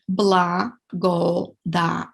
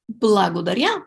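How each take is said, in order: First: "Благодаря" stretched out slowly, syllable by syllable; slow it down so students can follow; slow syllable demo. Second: Said in the usual way. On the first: Shown as a demonstration. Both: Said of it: "Let's repeat".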